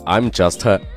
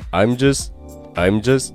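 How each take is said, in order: First: The final t of just is clearly released. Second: The final t of just is dropped. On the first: The speaker calls it wrong. "千万不要读成I'm just" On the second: The speaker calls it right. "词尾的T 美国人一般不会去把它发出来"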